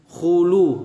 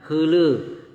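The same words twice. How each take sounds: First: The u vowel is said with rounded lips. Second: The u vowel is said with spread lips. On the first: The speaker calls it right. "betul-betul khulu" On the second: The speaker calls it wrong. "bukan khulu"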